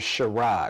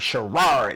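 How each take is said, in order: First: The final R is soft and relaxed. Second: The final R is hard and strongly stressed. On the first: The name is said normally. "how you pronounce my name is Sherrod" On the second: The person named is in trouble. "when I got in trouble, it's like Sherrod. That R was like real hard"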